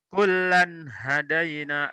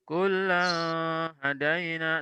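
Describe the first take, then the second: First: The n sound is short, clear and direct. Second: The n sound is held longer, not crisp. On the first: The speaker calls it right. "Yang betul adalah kullan hadaina, langsung" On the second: The speaker calls it wrong. "salah kalau dibaca kullan hadaina"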